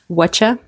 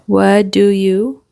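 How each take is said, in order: First: The words blend into one short reduced word. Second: Each word is said separately and fully.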